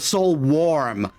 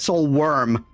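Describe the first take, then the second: First: The second word is said like 'warm'. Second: The second word is said like 'worm'. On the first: The speaker calls it right. "Oh, Soul Warm" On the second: The speaker calls it wrong. "I kept pronouncing it Soul Worm"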